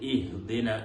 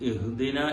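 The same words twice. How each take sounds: First: The opening vowel is a clear i sound. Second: The opening vowel is clipped and barely heard. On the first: The speaker calls it right. "ഹംസയെ കസ്റ് കൊടുത്തുകൊണ്ട്" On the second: The speaker calls it wrong. "ഹംസക്ക് സുക്കൂന് കൊണ്ട് തുടങ്ങാറുണ്ട്"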